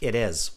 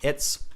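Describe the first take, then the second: First: The two words are said separately in full. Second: The two words are contracted into one syllable. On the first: "It's equals it is" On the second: "contractions are like saying it's"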